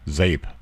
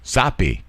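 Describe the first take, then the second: First: The word is given an English pronunciation. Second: The word is given a Portuguese pronunciation. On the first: The speaker calls it wrong. "I pronounced it English. Englishly" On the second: The speaker calls it right. "pronouncing it in her language, like the way hers would sound"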